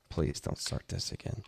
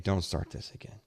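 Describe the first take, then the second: First: Whispered plea. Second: Said in the usual way. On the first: Real, not acted. Pleading with a friend named Dave.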